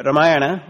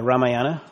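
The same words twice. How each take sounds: First: Ramayana as ruh-MY-ah-nuh, louder; reduced-vowel pronunciation. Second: Ramayana as RAH-ma-YAH-na; open-vowel pronunciation. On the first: Speaker offering one way to say the epic's name, Ramayana as ruh-MY-ah-nuh. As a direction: say "Ramayana" with a short, unstressed first "ruh". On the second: Speaker offering another way to say the epic's name, Ramayana as RAH-ma-YAH-na. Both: Shown as a demonstration. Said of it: "however you want to pronounce it".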